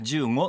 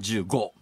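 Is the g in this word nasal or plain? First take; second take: nasal; plain. First: The g is pronounced as a nasal ng sound. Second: The g is pronounced as a plain hard g. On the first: This is how it would sound in an ordinary word. The speaker calls it wrong. "他の単語ならじゅうごってなるところが" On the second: Numbers keep this sound wherever they appear. The speaker calls it right. "数字は微濁にならないんで、えーどこで出てきてもじゅうご"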